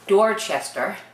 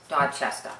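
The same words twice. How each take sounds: First: The r sounds are pronounced. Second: The r sounds are dropped. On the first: The speaker calls it wrong. "It should be Dorchester, but we don't say it like that" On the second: The speaker calls it right. "No R's"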